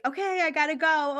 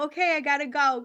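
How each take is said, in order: First: Lightly imitating a hurried brush-off; a slightly higher, quick "gotta go" to dodge the call. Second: Mild mock hurry, repeated; a light put-on "gotta go" again to end the call; brushing off. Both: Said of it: "I was being very like".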